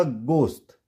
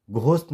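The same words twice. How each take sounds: First: गोश्त said as gost, hard plain g; correct, silent h. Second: घोस्ट with a breath of h after g; mispronounced "ghost" as घोस्ट; wrong, h sounded. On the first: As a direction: say गोश्त as "gost", no puff after g. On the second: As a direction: say घोस्ट with aspirated gh. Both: Shown as a demonstration. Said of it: "नहीं होगा".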